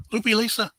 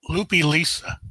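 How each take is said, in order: First: Higher with the sudden memory, Loopy first; Loopy Lisa, recalled with a lift; eureka recall. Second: Said in the usual way. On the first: Real, not acted. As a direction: hit it as the name clicks. Recalls the name correctly.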